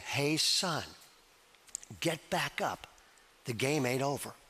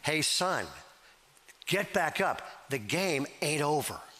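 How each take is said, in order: First: It is said in a faint voice. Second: It is said in a stronger voice.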